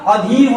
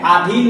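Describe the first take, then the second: First: अधीन said "a-dheen"; brief first vowel, long "dheen" in अधीन; corrected pronunciation. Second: अधीन said "aa-dheen"; lengthened first vowel in अधीन; rejected pronunciation. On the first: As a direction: open अधीन on a short a. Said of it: "अधीन होता है". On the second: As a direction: open अधीन on a long aa. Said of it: "अधीन नहीं होता". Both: Shown as a demonstration.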